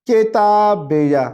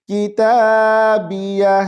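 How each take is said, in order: First: किताबिया said wrongly as "etabbeya", with a doubled b and a faster pace; wrong pronunciation. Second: किताबिया with kaf under zer, as "kitaabiya"; correct pronunciation. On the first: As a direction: mispronounce किताबिया as etabbeya, rushed. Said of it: "किताबिया को इस तरह नहीं पढ़ेंगे". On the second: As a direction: recite किताबिया cleanly as kitaabiya. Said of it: "काफ जेर की होता है". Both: Shown as a demonstration.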